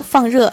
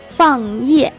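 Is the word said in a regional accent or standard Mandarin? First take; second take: standard; accented. First: It is said in standard Mandarin pronunciation. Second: It is said in a heavy regional accent. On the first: "其实这3 个词分别是" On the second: "有口音的人"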